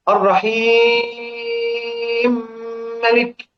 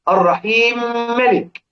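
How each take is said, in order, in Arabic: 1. الحركة قبل الميم المدغمة تمتد ست حركات. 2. الحركة قبل الميم المدغمة تمتد حركتين. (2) "على 2"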